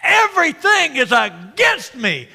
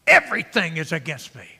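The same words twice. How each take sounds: First: High, loud acted wail; frustrated outburst. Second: Loud, measured lament; acted complaint. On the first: Frustrated Jacob laments to his sons, high loud outburst. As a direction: cry it out in exasperation. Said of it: "he's frustrated". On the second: Frustrated Jacob makes his statement, measured acted complaint. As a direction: state it firmly as a grievance. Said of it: "he makes a statement".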